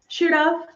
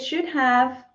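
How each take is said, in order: First: 'Have' is reduced to a short 'v' sound. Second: 'Have' is said as a full separate word. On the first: It sounds natural and casual. "if you want to sound more like a native speaker ... we have the v sound" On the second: It sounds formal or gives emphasis. "you can also say"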